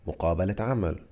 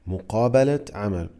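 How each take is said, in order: First: The phrase is said fast and casually. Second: The phrase is said slowly and carefully.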